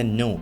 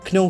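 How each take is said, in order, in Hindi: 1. शब्द की शुरुआत में सिर्फ़ n की आवाज़ है। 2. शब्द की शुरुआत में n से पहले k की आवाज़ है।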